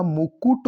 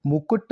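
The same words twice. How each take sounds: First: मुकुट as "mu-kut", u in both syllables; correct pronunciation. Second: मुकुट as "mu-kat", second vowel a; wrong pronunciation. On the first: Teacher correcting the word, मुकुट as "mu-kut". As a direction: sound the second u in मुकुट. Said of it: "होता है". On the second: Teacher showing the error, मुकुट as "mu-kat". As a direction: say मुकुट with a short a after k. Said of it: "नहीं होता". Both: Shown as a demonstration.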